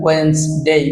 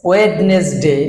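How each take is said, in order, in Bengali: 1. মাঝের d নীরব, দুটি শব্দাংশ। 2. মাঝের d উচ্চারিত হয়, তিনটি শব্দাংশ। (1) "রাইট প্রনাউন্সিয়েশন ওয়েন্সডে" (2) "অনেক শিক্ষিত লোকেরাও কিন্তু আমরা ওয়েডনেসডে বলি"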